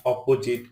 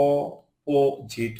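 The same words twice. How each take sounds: First: Said in the usual way. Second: "opposite" pulled apart for learners; split syllables. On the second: Shown as a demonstration. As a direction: pause between the syllables of "opposite". Word split by syllable, then whole.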